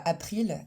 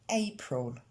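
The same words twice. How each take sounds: First: April with French a and i; imitating French April, apʀil; French-style April. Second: April slow and soft, apol, dark l; slow x0.5 April with English vowel. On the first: Teacher shows the wrong French April. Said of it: "On ne dit pas". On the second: Shown as a demonstration. Teacher gives the right April right after the wrong one. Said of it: "mais April".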